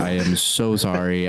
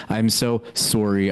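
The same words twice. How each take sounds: First: Said in the usual way. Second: Canadian "sorry" with a rounded SORE-ee; slow Canadian apology, "sorry" as SORE-ee; mock Canadian accent. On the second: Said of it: "that's a lot of fun to say".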